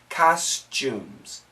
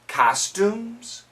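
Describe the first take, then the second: First: The second syllable begins with a ch sound. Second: The second syllable begins with a plain t sound.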